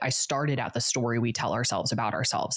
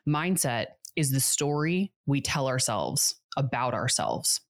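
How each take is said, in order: First: It is said at a normal pace. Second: It is said a little more slowly.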